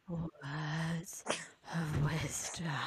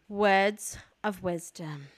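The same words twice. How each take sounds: First: It is said in a sensual voice. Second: It is said in a plain voice.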